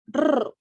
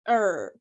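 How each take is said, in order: First: The r sound is made the Spanish way. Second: The r sound is made the English way. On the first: "in Spanish. They tend to be pronounced like this" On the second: "but in English it's er"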